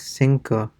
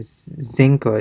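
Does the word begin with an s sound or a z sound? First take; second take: s; z. First: The first sound is a hissing s. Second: The first sound is a buzzing z. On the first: "It's more like Cinco" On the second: "definitely not like a Zinco"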